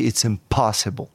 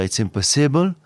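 First: "impossible" with POS punched, ending reduced; English tonic accent on the second syllable of "impossible"; correct tonic stress. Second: "impossible" evenly stressed, French-style, full last syllable; French-leaning, evenly weighted "impossible"; wrong tonic stress. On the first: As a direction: lean hard on the POS in "impossible". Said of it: "Accent tonique". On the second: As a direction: say "impossible" without punching POS. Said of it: "au lieu de dire It's impossible". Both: Shown as a demonstration.

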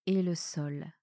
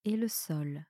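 Both takes have the same delivery.

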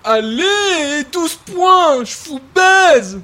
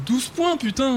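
First: Loud, slow, gloating victory cry; triumphant gloat. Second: Relishing the score. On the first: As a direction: rub the win in their faces. Triumphant gloat after a scoring shot. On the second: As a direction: savour it under your breath. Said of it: "t'as vu ce coup que je leur ai mis". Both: Acted.

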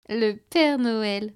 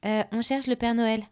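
First: Slow, drawn-out amused echo; amused repeat. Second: Said in the usual way. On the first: A narrator's reading. Hostess repeats the child's words, slow and amused. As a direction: stretch it out, half laughing at the child. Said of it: "répéta la jeune femme en riant".

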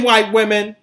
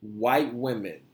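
First: Emphatic repeat. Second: Said in the usual way. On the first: Real, not acted. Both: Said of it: "Let me say that again".

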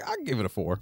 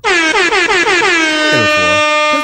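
First: Said in the usual way. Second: Much higher, louder, slow and stretched out; hammed-up announcement. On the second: Shown as a demonstration. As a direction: belt out the rating like a big reveal. Re-take of the rating, hammed up.

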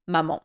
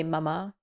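First: "maman" with a nasal French final vowel, stress on the end. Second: Mama said the English way, stress on the first syllable. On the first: Host teaching listeners the French word, native French pronunciation. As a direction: say "maman" like a French child calling mother. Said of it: "in the more familiar way, we say maman". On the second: Podcast host contrasting English mama with French, English pronunciation. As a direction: say "mama" the way they say it in Downton. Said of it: "in Downton they say mama". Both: Shown as a demonstration.

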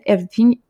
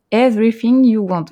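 First: Said in the usual way. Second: Hammed-up English accent on the book title; mock English accent. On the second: Shown as a demonstration. Host announcing the guest's novel in a playful English accent. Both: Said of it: "avec mon super accent anglais".

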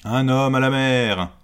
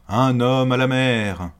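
First: Loud high alarm call; bellowing over the wind. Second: Loud urgent repeated shout; bellowing over the wind. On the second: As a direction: call again over the storm. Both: Acted. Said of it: "la voix du capitaine qui résonne".

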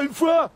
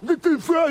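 First: "une fois" shouted high and loud, falling firmly; insistent protest. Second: Shouted high and loud, "une fois" rising as a plea; panicked protest. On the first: French cop insisting to the officer, falling high shout. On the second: French cop denying the Belgian accent, rising high shout. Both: Acted.

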